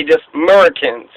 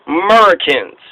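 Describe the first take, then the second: First: "Murricans" clipped with no A sound; "just Murricans", no A; Murricans again. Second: "Murricans" said with no A, as mer-uh-kuns. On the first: Host repeats the name for listeners: "Murricans" without the A. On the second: Podcaster shows the Trinidad name: "Murricans" without the A. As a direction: drop the A: "Murricans". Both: Shown as a demonstration. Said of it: "So no A".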